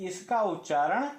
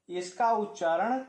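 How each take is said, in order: No difference in how they are said.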